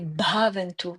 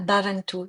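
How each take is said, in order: First: The first b is followed by breath. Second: The first b is plain, without breath. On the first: The speaker calls it right. "c'est Bhavantu, hein, B H, il y a un B" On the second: The speaker calls it wrong. "c'est pas Bhavantu"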